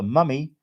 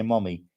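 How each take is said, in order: First: "mummy" with a British short "uh" vowel; British pronunciation. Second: "mommy" with an open American "ah" vowel; American pronunciation. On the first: Reading a viewer's word comparison, British pronunciation. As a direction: say "mummy" the British way, MUH-mee. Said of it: "the Brits say". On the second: Reading a viewer's word comparison, American pronunciation. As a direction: say "mommy" the American way, MAH-mee. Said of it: "but we say". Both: Shown as a demonstration.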